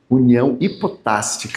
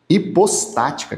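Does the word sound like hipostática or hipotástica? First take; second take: hipotástica; hipostática. First: The s and t sounds come in swapped order. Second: The s and t sounds come in standard order. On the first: The speaker calls it wrong. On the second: The speaker calls it right.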